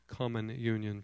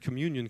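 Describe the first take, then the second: First: The stress falls on an unusual syllable. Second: The stress falls on the usual syllable.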